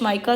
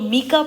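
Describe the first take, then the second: First: The first vowel sounds like 'eye'. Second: The first vowel sounds like 'ee'. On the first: Other people say it this way. "कुछ माइका, तो मैं माइका pronounce करती हूँ" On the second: Some people say it this way. "इसे कुछ लोग मीका पढ़ते हैं"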